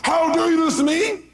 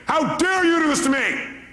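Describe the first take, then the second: First: Even higher shrill echo; mock angry cry back. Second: High, slow indignant wail; mock angry cry. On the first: Speaker acting the other person answering in kind, higher. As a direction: throw the same cry right back. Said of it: "You go". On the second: Speaker acting an angry person crying for help. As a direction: wail it like a hurt accusation. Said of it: "Somebody's angry".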